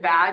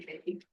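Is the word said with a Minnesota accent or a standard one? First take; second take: standard; Minnesota. First: The word is said in a standard accent. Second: The word is said with a Minnesota accent. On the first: "instead of bag" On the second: "a lot of people from Minnesota say"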